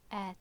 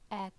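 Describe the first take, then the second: The two takes are said the same way.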